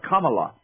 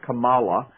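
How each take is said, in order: First: The name is said with an Indian pronunciation. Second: The name is said with an American pronunciation. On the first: The speaker calls it right. "I think it's pronounced Kamala with the Indian accent" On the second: The speaker calls it wrong. "in America a lot of people pronounce it Kamala, which is kind of how it looks"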